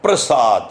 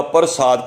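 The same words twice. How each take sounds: First: ਪ੍ਰਸਾਦ said "prasad", with p and r joined in one cluster; correct prasad. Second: ਪ੍ਰਸਾਦ said as "parsad", with a full vowel before the r; wrong reading of prasad. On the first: Preacher teaches the congregation the right sound of ਪ੍ਰਸਾਦ, "prasad". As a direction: join the half rara straight onto the p in ਪ੍ਰਸਾਦ. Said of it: "ਪੈਰਾਂ ਪੱਪੇ ਨੂੰ ਅੱਧਾ ਰਾਰਾ ਪਾਇਆ ਹੈ". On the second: Preacher shows the wrong reading of ਪ੍ਰਸਾਦ as "parsad". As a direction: misread ਪ੍ਰਸਾਦ as "par-sad" with the r after the vowel. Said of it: "ਪਰ ਇੱਥੇ ਪੈਰਾਂ ਪੱਪੇ ਨੂੰ ਅੱਧਾ ਰਾਰਾ ਪਾਇਆ ਹੈ".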